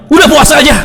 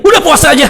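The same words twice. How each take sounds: First: High, loud mock-grudging permission; gruff husband's yes. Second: High, loud mock-annoyed permission with a laugh; loud grudging yes. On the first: Husband grudgingly allows his wife's fast, loud and mock-annoyed. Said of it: "ngebolehinnya dengan suara yang keras gitu". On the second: Husband gives his wife grudging loud permission, laughing. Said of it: "dengan suara yang keras gitu".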